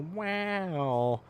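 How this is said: It is said with a high-pitched inflection.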